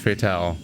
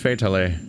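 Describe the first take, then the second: First: The ending does not rhyme with finale. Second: The ending rhymes with the word finale. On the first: The speaker calls it wrong. "not Fatale" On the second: The speaker calls it right. "her name's Fatale, That's why it rhymes with finale"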